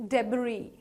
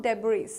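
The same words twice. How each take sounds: First: "debris" as DEB-ree, silent s; correct debris. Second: "debris" as DEB-rees, s sounded; mispronounced debris. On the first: Teacher giving learners the right debris, silent s. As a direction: end "debris" on an open ee. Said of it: "the S in the end is silent". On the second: Teacher warning learners off wrong debris, s sounded. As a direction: end "debris" on an audible s. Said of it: "it's not debris". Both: Shown as a demonstration.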